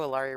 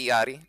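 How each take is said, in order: First: The name is pronounced with anglicized English sounds. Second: The name is pronounced with Spanish-style sounds. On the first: The speaker calls it wrong. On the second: The speaker calls it right.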